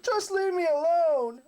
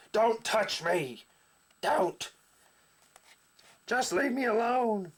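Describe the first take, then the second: First: Mock whiny wail, much higher and louder, slow; whiny teen. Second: Snarled, much higher, pushing her away; a cornered hero snarls at her; snarling. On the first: Mocking a serious guy who whines like a sulky teen, high wailing cry. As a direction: send up a hero sulking like a teenager. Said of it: "a guy you're supposed to take seriously is like". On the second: Acted. Grayscale snarling at Felicity after using instant karma, angry high snarl. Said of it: "he turns around kind of snarling".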